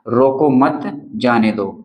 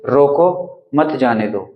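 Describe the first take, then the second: First: Slow reading, comma pause after मत. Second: रोको set apart, then मत जाने दो together; pause after रोको. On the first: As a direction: say रोको मत together, pause, then जाने दो. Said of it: "यहाँ पर हमने अल्प विराम लगाया है". (मत के बाद ठहराव) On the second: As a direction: stop clearly after रोको before saying मत जाने दो. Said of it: "रोको के बाद में अल्प विराम लगाया है". (रोको के बाद ठहराव) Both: Shown as a demonstration.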